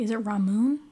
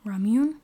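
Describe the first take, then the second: First: "Ramune" said rah-MOON, no y sound; "Ramune" as rah-MOON, asking; pronunciation try. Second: "Ramune" said rah-MYOON with a y sound; "Ramune" as rah-MYOON, asking; pronunciation try. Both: Shown as a demonstration. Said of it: "no idea if I'm saying that correctly".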